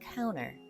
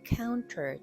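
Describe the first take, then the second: First: The T sound after N is dropped. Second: The T sound after N is clearly pronounced. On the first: The speaker calls it right. "N과 T가 연달아서 올 때는 T 발음을 거의 하지 않습니다" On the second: The speaker calls it wrong. "counter 대신에"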